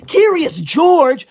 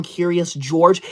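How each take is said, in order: First: Higher and louder, slow indignant repeat; Curious George stretched out in outrage; offended disbelief. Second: Said in the usual way. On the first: Acted. Offended by a nickname. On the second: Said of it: "Local Cece says".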